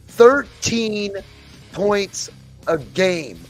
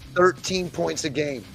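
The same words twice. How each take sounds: First: It is said loudly. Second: It is said at normal volume.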